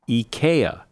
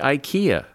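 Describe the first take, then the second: First: The word starts with 'ee'. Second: The word starts with 'eye'. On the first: The speaker calls it right. "But the correct pronunciation is IKEA" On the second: The speaker calls it wrong. "Who doesn't say IKEA?"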